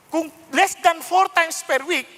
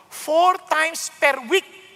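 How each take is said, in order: First: Less than four spelled out slowly, four held; slow, weigh each word of less than four; stress on less than four. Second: Four drawn out very slowly, rising; stress on four. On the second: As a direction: lean hard on four, very slow. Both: Shown as a demonstration. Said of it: "at least four times and more".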